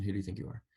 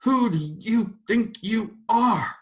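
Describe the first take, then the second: First: Quiet echo. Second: Very high, slow, louder roar; a final surge of fury. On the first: Shown as a demonstration. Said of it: "her question". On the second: A narrator's reading. Mrs. Turpin roaring at God, furious. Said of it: "she roared".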